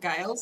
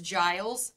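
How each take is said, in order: First: The name begins with a hard G sound. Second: The name begins with a soft J sound. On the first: The speaker calls it wrong. "not Giles" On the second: The speaker calls it right. "last name is Giles"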